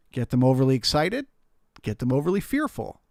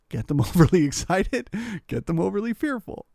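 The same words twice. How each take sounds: First: Said in the usual way. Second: Higher, with a laugh on "overly". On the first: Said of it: "repeated phrase, second take livelier". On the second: Shown as a demonstration. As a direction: laugh through the repeat.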